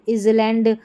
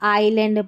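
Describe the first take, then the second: First: An s-like sound is pronounced after the first vowel. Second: No s sound is heard after the first vowel. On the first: The speaker calls it wrong. "इसको इजलैंड ऐसे नहीं बोलते" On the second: The speaker calls it right. "आइलैंड पढ़ते हैं"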